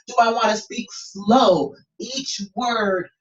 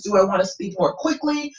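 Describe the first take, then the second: First: Slowing down, drawing out SLOW; slow delivery. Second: Demonstrating brisker speech; quicker delivery. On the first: Coach playing with voice for a student, slow delivery. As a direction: stretch "slow" and set each word apart. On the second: Coach playing with voice for a student, quicker delivery. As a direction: move briskly through the question. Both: Shown as a demonstration. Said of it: "kind of playing with my voice".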